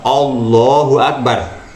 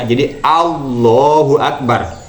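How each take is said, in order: First: The first vowel is heavy and o-like. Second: The first vowel is thin and light. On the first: The speaker calls it wrong. "jadi di situ tidak benar" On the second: The speaker calls it right. "Yang benar adalah dibaca bersih"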